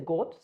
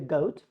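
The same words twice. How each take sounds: First: The vowel is one steady sound. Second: The vowel glides between two sounds. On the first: The speaker calls it wrong. "don't say goat" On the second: The speaker calls it right. "say goat"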